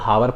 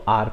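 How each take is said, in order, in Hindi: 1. इस शब्द की शुरुआत एक सुनाई देने वाली 'h' ध्वनि से होती है। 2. इस शब्द की शुरुआत एक स्वर से होती है, 'h' साइलेंट है। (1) "हम इसको हावर पढ़ सकते हैं" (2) "बट हम इसको आर पढ़ते हैं"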